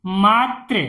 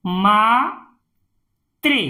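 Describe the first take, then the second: First: Said in the usual way. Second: "Mhatre" slowly, in two separated parts; syllable by syllable. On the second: Shown as a demonstration. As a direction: split "Mhatre" with a pause inside. Teacher sounds out, then blends. ("मात्रे" को तोड़कर पढ़ना)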